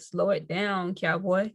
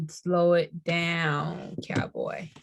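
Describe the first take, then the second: First: Said in the usual way. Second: Drawn-out slow. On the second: Acted. Reader telling viewers to slow down, drawled slowly. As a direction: stretch it out slowly, trailing off to breath on cowboy.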